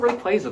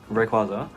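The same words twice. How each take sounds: First: The middle syllable sounds like the word quasar. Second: The middle syllable sounds posh and British. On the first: The speaker calls it right. "it's based on a quasar" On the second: The speaker calls it wrong. "know that you sound like a posh British twat"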